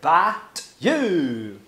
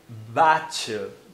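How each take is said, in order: First: The t is a clear plain t sound. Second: The t turns into a ch sound. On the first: "que é a pronúncia correta" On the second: "ele pronuncia but you"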